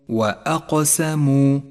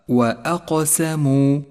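The two takes are said the same way.

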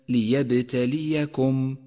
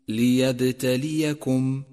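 Both takes have the same delivery.

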